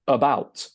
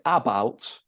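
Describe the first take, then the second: First: The stress is on the second syllable. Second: The stress is on the first syllable. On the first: The speaker calls it right. "We stress the second" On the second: The speaker calls it wrong. "We don't say about because we don't stress the first syllable"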